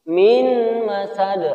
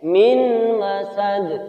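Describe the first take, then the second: Both takes have the same delivery.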